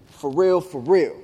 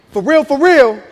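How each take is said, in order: First: Said in the usual way. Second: Loud, high, emphatic warning; wife meaning it. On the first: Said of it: "when she says this phrase". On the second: Retold or imitated. Wife demanding the baby from husband, loud mock-stern warning. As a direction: hit both REALs hard and high, as "for real, for real". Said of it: "So she like".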